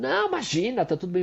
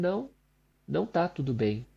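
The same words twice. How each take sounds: First: High, breezy brush-off; sister brushing it off. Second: "tá" leaned on, quiet and firm, a soft insistence; firm correction. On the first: Sister brushing off the apology, light and high. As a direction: wave it away lightly, a hint of the sister. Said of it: "E ela fala". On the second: Speaker insisting to his sister it is not fine, quiet and firm. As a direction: refuse the brush-off gently but firmly. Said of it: "Eu falei". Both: Retold or imitated.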